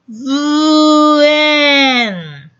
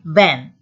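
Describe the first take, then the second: First: The word is sounded out slowly, sound by sound. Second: The word is said at an ordinary pace.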